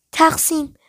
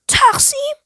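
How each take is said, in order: First: تقسیم with a falling, settled tone; تأیید. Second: High, sharply rising incredulous question; پرسش ناباورانه. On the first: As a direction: say تقسیم softly falling, as a confirmation. Girl confirms the word as a statement. (تقسیم با لحن خبری و افتان) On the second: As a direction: echo the word as a startled question. Narrator repeats her proposal, astonished. (با تعجب و ناباوری) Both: A narrator's reading.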